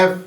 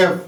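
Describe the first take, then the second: First: F said as ef, opening on a clear vowel; F: a clean "ef", vowel first; correct F. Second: F said the wrong way, as people usually do; F: mimic the common mistaken way, not "ef". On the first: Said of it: "correct pronunciation is". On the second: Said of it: "అందరూ ఇలా పలుకుతూ ఉంటారు". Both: Shown as a demonstration.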